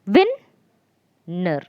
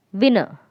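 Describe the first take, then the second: First: "Win, ner" with a long pause between beats; split into syllables. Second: Said in the usual way. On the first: Shown as a demonstration. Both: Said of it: "Win is the first syllable".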